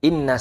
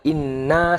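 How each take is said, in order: First: The final vowel is held for one beat. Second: The final vowel is held for two beats. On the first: It means 'indeed'. "Inna sesungguhnya" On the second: It means 'indeed we'. "ini inna sesungguhnya kami"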